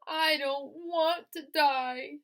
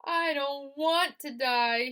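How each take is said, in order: First: High, loud, very slow scream. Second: High, loud, slow moan. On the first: Wilbur throwing himself down, high slow scream. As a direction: drag out a desperate scream. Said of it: "screamed Wilbur". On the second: Wilbur bursting into tears, slow loud moan. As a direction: moan it out tearfully. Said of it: "he moaned". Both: A narrator's reading.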